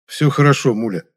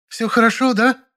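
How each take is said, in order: First: Mildly reassuring, a bit raised; an understated attempt to sound composed; собранное успокаивание. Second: High-pitched outraged female character voice; hysterical cry. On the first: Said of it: "смог взять себя в руки". (успокаивающе, собранно) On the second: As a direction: challenge in a high, frantic voice. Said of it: "закричала она не своим голосом". (истеричный крик высоким голосом) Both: A narrator's reading.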